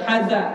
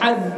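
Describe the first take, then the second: First: The z is followed by an a vowel. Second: The word ends on a bare z sound. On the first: The speaker calls it wrong. "bukan haza" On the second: The speaker calls it right. "Jadi haz"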